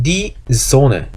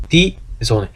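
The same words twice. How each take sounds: First: "die Sonne" drawn out slowly, each syllable given; slow model reading. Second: Said in the usual way. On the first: Shown as a demonstration. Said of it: "그 다음에 die Sonne". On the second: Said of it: "콤멘 하지 않는다".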